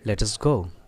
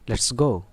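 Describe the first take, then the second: First: Let and us are said as separate words. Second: Let and us merge into one short syllable. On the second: "अब लेट अस को short कर दें आप, this is called shortening"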